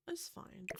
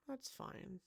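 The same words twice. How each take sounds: First: "It's fine" whispered under the breath, resigned. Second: Said in the usual way. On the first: Real, not acted. Builder settling for badly placed windows, resigned whisper.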